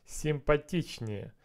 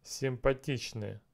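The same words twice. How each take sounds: The two takes are said the same way.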